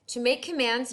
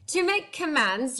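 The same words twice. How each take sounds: First: It is spoken in the speaker's ordinary accent. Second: It is spoken with a put-on French accent.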